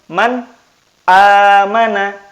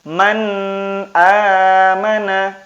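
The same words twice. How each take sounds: First: The n sound is pronounced clearly and separately. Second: The n sound is blurred into the following vowel. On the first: The speaker calls it right. "jadi jelas" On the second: The speaker calls it wrong. "Jadi bukan man amana. Bukan seperti itu"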